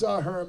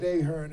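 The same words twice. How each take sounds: First: Ahern said as uh-HERN; correct surname pronunciation. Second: Ahern said as AY-hern; imitating her AY-hern for Ahern; mispronounced surname. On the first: Shown as a demonstration. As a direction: Ahern with a short, unstressed first vowel. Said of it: "said it right". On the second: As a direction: say Ahern with a long AY at the start. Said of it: "It's Ahern, by the way".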